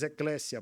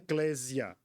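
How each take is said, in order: First: The middle consonant is a voiceless s sound. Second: The middle consonant is a voiced z sound. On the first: The speaker calls it right. "mas eclésia, porque no grego não tem o som de Z" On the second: The speaker calls it wrong. "não é eclésia, como alguns chamam"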